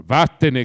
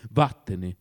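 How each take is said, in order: First: Loud commanding dismissal; shouted, imperious order. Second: Low, restrained threat; understated threatening dismissal; menacing. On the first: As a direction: bellow the order like a master. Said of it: "gridò Oblomov in tono imperioso". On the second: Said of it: "aggiunse minaccioso". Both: A narrator's reading.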